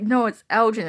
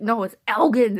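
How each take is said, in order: First: Loud ELGIN with g as in gem; soft-g ELGIN. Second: Loud ELGIN with g as in get; hard-g ELGIN. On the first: Co-workers contradicting her, loud ELGIN with a j sound. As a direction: argue back loudly, ELGIN with a j sound. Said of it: "And they're like". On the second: Woman correcting people on her unit, loud hard-g ELGIN. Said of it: "And I'm like". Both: Retold or imitated.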